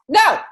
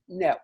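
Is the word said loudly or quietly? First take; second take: loudly; quietly. First: The word is said loudly and forcefully. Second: The word is said quietly and calmly. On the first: The speaker calls it wrong. "That was a little bit loud" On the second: The speaker calls it right. "I just wanted to go like this"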